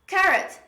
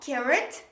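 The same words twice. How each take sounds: First: The r sound is single and short. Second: The r sound is doubled and held long. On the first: The speaker calls it right. "There is only one R when we pronounce carrot" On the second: The speaker calls it wrong. "not carrot. There is no double R"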